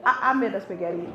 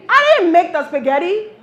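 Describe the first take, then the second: First: Low, stammered climb-down; sheepish admission. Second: Loud, high-pitched mock defiance; defiant declaration. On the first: Acted. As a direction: give in, deflated, for the punchline. Sheepish admission undercutting the boast. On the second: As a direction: boast it loudly to set up the joke. Fake defiant answer before reversal.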